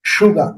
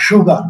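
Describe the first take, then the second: First: সুগার starting with sh; sh in sugar. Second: সুগার with a plain s; wrong s in sugar. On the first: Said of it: "SH এর মতো হবে". (সুগার sh দিয়ে) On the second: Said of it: "not সুগার". (ভুল: সুগার s দিয়ে) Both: Shown as a demonstration.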